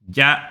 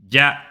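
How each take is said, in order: The two takes are said the same way.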